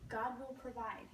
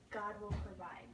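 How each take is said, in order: First: Calmly. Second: Said in the usual way. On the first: Acted. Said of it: "he replies calmly".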